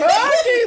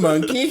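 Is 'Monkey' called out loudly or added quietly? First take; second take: called out; added quietly. First: Monkey is called out loudly as a shout. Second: Monkey is added quietly to the sentence.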